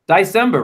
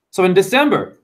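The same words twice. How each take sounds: First: "December" with first syllable said "die"; December as "die-cember". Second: Said in the usual way. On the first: Shown as a demonstration. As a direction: say "December" as DIE-sem-ber. Wordplay on month's first syllable.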